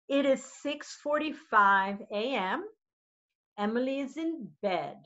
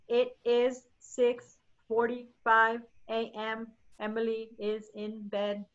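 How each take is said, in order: First: It is read slowly with lively, varied pitch. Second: It is read in a flat, monotone voice. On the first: It sounds interesting and mirrors real language. The speaker calls it right. "this is what slowly sounds like. ... Make sure you're using the inflections" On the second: It sounds boring and unlike real language. The speaker calls it wrong. "than to read like this. ... Boring"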